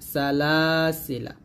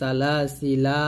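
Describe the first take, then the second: First: The final vowel is kept short. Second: The final vowel is drawn out long. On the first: The reciter continues reading without stopping. "তবে এই লাতে টান দিব না" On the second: The reciter stops at the end of the word. "এরকম টান দিতাম"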